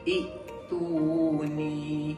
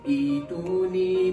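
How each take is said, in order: First: It opens with i and a glottal stop. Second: It opens with a long i vowel. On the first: The speaker calls it wrong. "tidak menukarkan ataupun mengibdalkan huruf hamzah itu kepada huruf ya mad" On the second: The speaker calls it right. "cara bacaan yang sebenar ialah kita tukarkan huruf hamzah itu kepada huruf ya mad"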